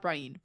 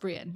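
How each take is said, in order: First: The name sounds like 'Brian'. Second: The name sounds like 'Bree-en'. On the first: The speaker calls it wrong. "Brian is not right" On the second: The speaker calls it right. "it's Brienne, not Brian"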